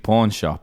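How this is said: It is said with an English-style vowel. It is the speaker's home way of saying it. "it would just be pawn shop in England"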